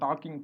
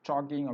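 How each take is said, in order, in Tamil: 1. இது கடினமான தமிழ் பாணி 't' ஒலியில் தொடங்குகிறது. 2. இது ஆங்கில பாணி 't' ஒலியில் தொடங்குகிறது. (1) "டாக்கிங்னே சொல்ல மாட்டாங்க" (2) "டாக்கிங் அப்படிம்பாங்க"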